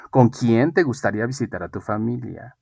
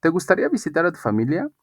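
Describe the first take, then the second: First: Falling open-question tune, usual pitch. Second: Quick, higher-pitched question rising to the end; brisk rising yes-or-no intonation. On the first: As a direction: question falling at the end on "familia". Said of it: "ahora digo". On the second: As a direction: lift "gustaría" and finish "familia" on a rise. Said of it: "para preguntas de sí y de no". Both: Shown as a demonstration.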